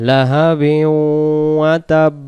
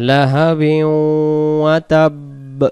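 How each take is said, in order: No difference in how they are said.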